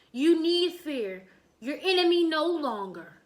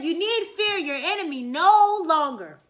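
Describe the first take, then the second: First: Said in the usual way. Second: Louder, proud and regal; proud loud declaration. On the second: Shown as a demonstration. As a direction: announce victory like a king. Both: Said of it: "He said".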